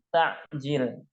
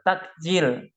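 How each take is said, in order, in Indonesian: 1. Bunyi ain yang berat mengikuti vokal pertama. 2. Bunyi k biasa mengikuti vokal pertama. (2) "Tulisannya T A K eh, J I L"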